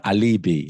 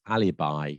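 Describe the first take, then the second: First: "alibi" said as "a-LEE-bee"; mispronounced alibi. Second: "alibi" ending like "eye"; correct pronunciation. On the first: Teacher shows a mistake learners make, "alibi" as "a-LEE-bee". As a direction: stress the middle of "alibi", ending like "bee". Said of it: "as I've heard it being said". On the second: Teacher models the word for learners, "alibi" ending in "bye". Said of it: "not alibi, as I've heard it being said". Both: Shown as a demonstration.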